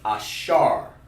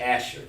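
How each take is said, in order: First: It is pronounced the Hebrew way. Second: It is pronounced the English way. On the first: "But in Hebrew, it's ah, ashar" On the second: "Over here in English, you want to just say Asher because that's how they pronounce it in English"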